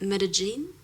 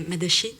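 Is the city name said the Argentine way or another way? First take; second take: another way; Argentine. First: The name is said without local Argentine pronunciation. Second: The name is said with local Argentine pronunciation. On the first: "that's the way I say it" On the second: "like here it would be"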